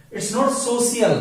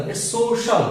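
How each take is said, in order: First: "social" said with an s, so-si-al, slowly; the mistaken s in "social"; wrong social. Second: "social" with a sh sound, so-shal; sh in the middle of "social"; correct social. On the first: Teacher to class, showing the wrong "social". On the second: Teacher to class, modelling the correct "social". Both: Shown as a demonstration.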